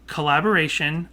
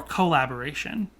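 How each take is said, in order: First: "collaboration" with a quick, unstressed "kuh" at the front; reduced first syllable. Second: "collaboration" with a clear long O, "koh"; full "co" first syllable. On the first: Host comparing two ways to say "collaboration", a light "kuh" first syllable. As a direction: say "collaboration" as kuh-lab-uh-RAY-shun. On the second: Host comparing two ways to say "collaboration", a full "koh" first syllable. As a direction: say "collaboration" as koh-lab-uh-RAY-shun. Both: Shown as a demonstration. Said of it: "Do you think there's a big difference".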